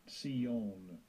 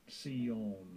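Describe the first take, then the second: Both takes have the same delivery.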